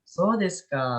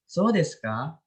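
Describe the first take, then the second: First: "so desu ka" with "ka" falling at the end; falling intonation. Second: "so desu ka" with "ka" rising at the end; rising intonation. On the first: Teacher contrasts the two tunes for students, falling intonation. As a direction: drop the final "ka" of "so desu ka". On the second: Teacher contrasts the two tunes for students, rising intonation. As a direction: lift the final "ka" of "so desu ka" into a question. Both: Shown as a demonstration. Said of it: "yang turun tuh yang mana".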